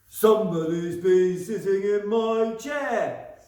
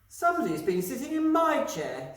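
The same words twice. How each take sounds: First: It is said in a deep, gruff voice. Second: It is said in a medium-pitched voice. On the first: "in his great big gruff voice" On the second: "in her middle-sized voice"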